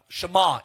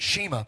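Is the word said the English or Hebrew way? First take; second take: Hebrew; English. First: It is said with a Hebrew pronunciation. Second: It is said with an English pronunciation. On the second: This is how English-speaking Christians say it. "We would pronounce it Shema"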